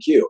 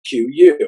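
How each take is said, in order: First: The name is said as one syllable. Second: The name is said as two syllables. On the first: This is how the company meant it to be said. "you put the four letters together and pronounce the word Q" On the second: This is how almost everyone actually says it. "Everybody says Q U"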